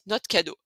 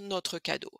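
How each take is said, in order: First: Notre is said without its final r and e. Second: Notre is said in full, with its final e. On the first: This is the casual everyday way to say it. "on va carrément enlever le R aussi" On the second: This is the formal way to say it. "en français formel, vous allez dire notre cadeau. Vous allez prononcer en fait le E"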